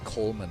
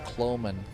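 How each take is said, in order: First: The name sounds like 'Coleman', the lantern. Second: The name does not sound like 'Coleman'. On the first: The speaker calls it wrong. "I once used to mispronounce it all the time, called it Coleman, like the lantern" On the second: The speaker calls it right. "Good old Cloman"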